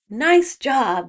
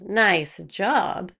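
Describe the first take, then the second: First: It sounds warm and sincere. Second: It sounds mocking and sarcastic. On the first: The praise is genuine. "said sincerely" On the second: The praise is not meant. "said with a specific tone"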